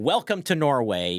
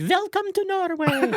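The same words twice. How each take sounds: First: Light Norwegian accent, retold; hint of a Norwegian accent. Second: Strong Norwegian accent, much higher. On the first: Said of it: "in her Norwegian accent". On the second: Shown as a demonstration. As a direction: play up a sing-song Norwegian accent. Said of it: "Can you recreate that accent now?".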